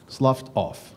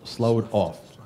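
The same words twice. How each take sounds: First: "sloughed" said as "sluffed", with a short u and an f sound; "sloughed" rhymes with "stuffed"; corrected pronunciation. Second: "sloughed" said as "slowed", rhyming with "showed"; "sloughed" with a long o and no f sound; mispronounced word. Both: Real, not acted.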